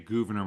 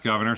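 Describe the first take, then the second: First: The name ends with a French-style sound. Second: The name sounds like the English word governor. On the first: It is the habitual way of saying it. The speaker calls it wrong. "I want to say Gouverneur Morris because I've been saying it that way for a long time" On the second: It is the likely historical way of saying it. The speaker calls it right. "it's probably pronounced Governor"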